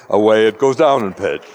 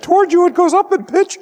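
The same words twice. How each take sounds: First: "Away" dropped back down, sliding lower to the end; low pitch demo. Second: Whole line squeaked far higher, a bit louder; "Toward you" sung way up high like an approaching siren; high pitch demo. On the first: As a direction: let the pitch fall away as if receding. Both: Shown as a demonstration. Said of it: "that's the Doppler effect, slightly exaggerated".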